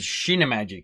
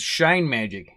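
First: It is said with a Japanese pronunciation. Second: It is said with an English pronunciation. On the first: "They read it as" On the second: "we read this as"

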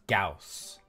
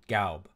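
First: The name ends with an s sound. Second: The name ends with a b sound. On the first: This is the American way of saying it. The speaker calls it wrong. "here in the States, it's pronounced Gauss" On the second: This is the German way of saying it. The speaker calls it right. "in German, it's pronounced Gaub"

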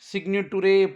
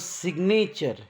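First: The ending is said as 'too-reh'. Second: The ending is said as 'cher'. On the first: The speaker calls it wrong. "असं ना वाचता" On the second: The speaker calls it right. "TUREला चर म्हणून"

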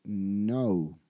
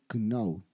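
First: No K sound is heard before the N. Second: A K sound is heard before the N. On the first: The speaker calls it right. "esa K es muda, esa K no suena" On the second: The speaker calls it wrong. "el error frecuente que cometen los estudiantes es que pretenden pronunciar esta K"

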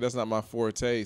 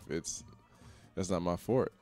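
First: The last word has two syllables, ending in 'tay'. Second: The last word has one syllable, like 'fort'. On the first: The speaker calls it wrong. "Somebody was being a dick when they first pronounced it like that" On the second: The speaker calls it right. "I was told later on in life"

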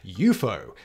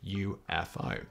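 First: It is said as a single word. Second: It is said as separate letters. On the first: The speaker calls it right. "he suggested UFO" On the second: The speaker calls it wrong. "not UFO"

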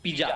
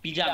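No difference in how they are said.

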